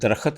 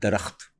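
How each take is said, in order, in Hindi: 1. इस शब्द का उच्चारण ग्रामीण पंजाबी लहजे जैसा है। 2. इस शब्द का उच्चारण मानक उर्दू जैसा है।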